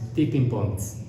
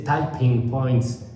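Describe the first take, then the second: First: The first vowel sounds like 'it'. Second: The first vowel sounds like 'eye'. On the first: The speaker calls it right. "es tipping points" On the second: The speaker calls it wrong. "no se dice typing points"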